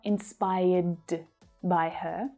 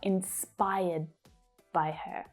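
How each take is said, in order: First: The final D is released with a puff of air. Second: The final D is held back without releasing air. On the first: The speaker calls it wrong. "Not inspired by her" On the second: The speaker calls it right. "I'm catching that sound before I release it"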